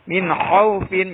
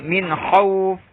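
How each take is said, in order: First: The word ends with the syllable fin. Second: The word ends on f with a lengthened vowel.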